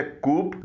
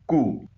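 First: कूप with the final P sounded; wrong pronunciation. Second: कू with silent P, just "koo"; correct pronunciation. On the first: Teacher warning learners off कूप with sounded P. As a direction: say कूप as "koop", P heard. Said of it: "इसे कूप न बोलिएगा". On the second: Teacher modelling for learners, कू without the P. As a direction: say कू as koo, ending on the vowel. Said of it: "इसका सही pronunciation है". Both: Shown as a demonstration.

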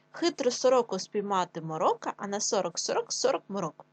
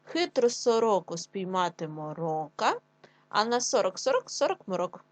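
First: Said in the usual way. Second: Slow, deliberate tongue twister; slow teacher read for children; slow careful reading. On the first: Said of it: "Чому по частинки?". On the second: Shown as a demonstration. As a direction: take it slowly and clearly. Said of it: "Ще раз разом, швидше".

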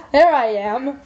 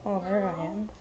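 First: Laughing as she says it. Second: Quiet. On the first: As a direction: say it through a chuckle. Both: Real, not acted.

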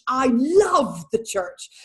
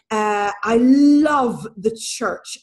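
First: A lingering second take that rises on church; tender echo. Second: Slow, louder, leaning hard on love; a firm, heavy first take; emphatic declaration. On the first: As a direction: say it again gently, as if to herself. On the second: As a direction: press down on every word, love most of all. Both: Real, not acted. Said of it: "repeats the line with emphasis".

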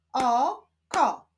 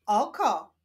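First: O, pause, KO; syllable by syllable. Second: Said in the usual way. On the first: Shown as a demonstration. Teacher showing how syllables form a word, O-ko split apart. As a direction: hold the O of "Oko", then a separate ko. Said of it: "łączmy sylaby". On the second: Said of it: "Powstaną z nich wyrazy".

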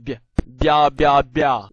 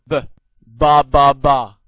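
First: Palatalized b, bia said "bya" with a y-glide; soft B. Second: Hard "b" then ba, ba, ba, no y-glide. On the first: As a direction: drill bia slowly as b plus y. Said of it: "軟音b". (軟音b，加耶音慢讀bia) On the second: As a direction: drill ba with a plain hard b, loud and slow. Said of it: "硬音b". (硬音b，慢慢大聲讀ba) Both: Shown as a demonstration.

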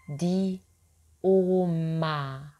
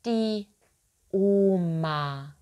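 No difference in how they are said.

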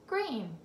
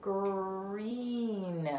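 First: Said in the usual way. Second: Slow drawn-out "green"; sounding out. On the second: Shown as a demonstration. Teacher sounding out "green" for the child. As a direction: stretch "green" out slowly. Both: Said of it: "I picked out this word".

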